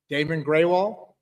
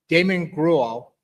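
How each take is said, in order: First: The surname sounds like the words gray wall. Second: The surname sounds like the word gruel. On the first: The speaker calls it right. "there it is" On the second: The speaker calls it wrong. "so not not a great one there"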